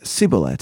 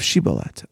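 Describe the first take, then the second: First: The word begins with an s sound. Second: The word begins with a sh sound. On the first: The speaker belongs to the tribe of Ephraim. "saying instead sin" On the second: The speaker belongs to another tribe of Israel. "letter shin"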